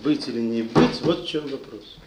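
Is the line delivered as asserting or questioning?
asserting. It is said like a firm statement of fact. Life holds one single question, to be or not. The speaker calls it right. "А написано"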